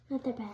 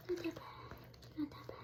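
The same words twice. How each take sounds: First: Said in the usual way. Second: Soft soothing whisper. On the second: Real, not acted. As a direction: whisper it to calm him. Comforting bird after bath.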